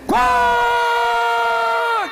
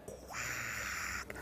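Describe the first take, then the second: First: Very high, long squawking quack; high-pitched quack held long; big duck quack. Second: Voiceless, whispered quack; barely audible whispered quack; tiny duck quack. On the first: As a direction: burst out with a drawn-out squawk. Third duck's big quack after hush. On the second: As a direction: let out a quack on breath alone. Fourth duck's barely audible quack. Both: Acted.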